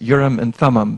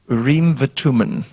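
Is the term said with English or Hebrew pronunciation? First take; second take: English; Hebrew. First: The term is said with an English pronunciation. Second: The term is said with a Hebrew pronunciation. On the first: "we pronounce it" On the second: "but in Hebrew it's called"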